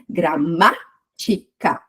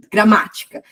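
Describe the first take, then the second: First: "Gramática" split slowly into gra-MÁ-ti-ca, MÁ strongest; syllable by syllable. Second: Said in the usual way. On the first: Shown as a demonstration. Teacher counting syllables for students, "Gramática" slowly split with MÁ stressed. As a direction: break "Gramática" into slow syllables, leaning on MÁ. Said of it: "contar de trás pra frente". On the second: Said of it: "por exemplo, a palavra".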